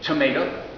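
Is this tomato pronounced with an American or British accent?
American. It is said with an American Kentucky pronunciation. This is the speaker's own way of saying it. "I say tomato"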